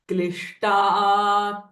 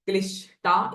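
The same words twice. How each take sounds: First: The sh is retroflex, with the tongue curled back. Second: The sh is a plain, non-retroflex sh. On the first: The speaker calls it right. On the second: The speaker calls it wrong.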